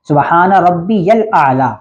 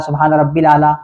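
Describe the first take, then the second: First: The middle word is said as 'rabbiyal', with 'ya'. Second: The middle word is said as 'rabbil', without 'ya'. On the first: The speaker calls it right. "या लाम ज़बर यल है" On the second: The speaker calls it wrong. "तो ये ऐसे नहीं पढ़ना"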